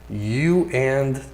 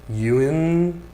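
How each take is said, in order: The two takes are said the same way.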